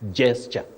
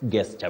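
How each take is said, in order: First: The word begins with a J sound. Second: The word begins with a hard G sound. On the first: The speaker calls it right. "The G at the beginning of that word takes sound J" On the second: The speaker calls it wrong. "not gesture"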